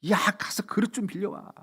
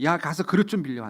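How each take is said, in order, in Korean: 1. 한 옥타브 정도 높은 음으로 말합니다. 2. 보통의 낮은 음으로 말합니다. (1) "한 옥타브 더 올린 솔로 얘기해요" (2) "한 쏠 정도 음으로 얘기해요"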